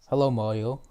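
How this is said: It is said in an Indian accent. The speaker calls it wrong. "And then I said it in such an Indian accent"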